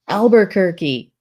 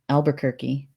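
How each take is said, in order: First: It is said very loudly. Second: It is said at a normal, quiet volume.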